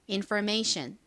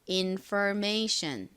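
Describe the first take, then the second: First: The word is said at normal speed. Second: The word is said slowly.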